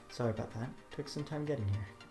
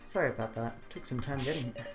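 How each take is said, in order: First: It is said in a put-on character voice. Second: It is said in the speaker's ordinary voice. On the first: The speaker calls it right. "There you go" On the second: The speaker calls it wrong. "I'm not in his voice right now"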